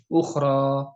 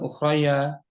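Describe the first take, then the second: First: The word ends in a long a vowel. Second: The word ends with an added ya sound. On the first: The speaker calls it right. "Bunyinya alif. Suaranya suara alif" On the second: The speaker calls it wrong. "bukan ukhraya"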